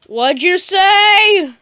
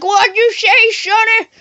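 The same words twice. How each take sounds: First: Long, drawn-out high yell; customer's shouted question. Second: Put-on hollering high-pitched old-timer; old man. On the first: Acted. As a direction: holler it slowly, stretching the last word. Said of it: "And you'll be like". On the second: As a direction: shout it like a hard-of-hearing grandpa. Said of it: "like, this old guy".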